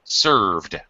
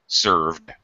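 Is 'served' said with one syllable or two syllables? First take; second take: one syllable; one syllable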